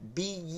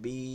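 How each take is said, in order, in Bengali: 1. শেষ স্বরটি চেপে ও ছোট করে বলা হয়। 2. শেষ স্বরটি মসৃণভাবে টেনে বলা হয়, চাপ ছাড়া। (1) "এরকম করা যাবে না" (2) "স্বাভাবিক বলবেন"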